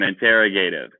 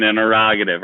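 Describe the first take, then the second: First: In-terra-GATE-ive, joke regional pronunciation; interrogative as interro-GATE-ive. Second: In-ter-ROG-a-tive, the standard way; interrogative, stress on ROG. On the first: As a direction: interrogative with a long "gate" near the end. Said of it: "depends on what country, what part of the country". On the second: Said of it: "make the joke of, depends on what country". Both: Shown as a demonstration.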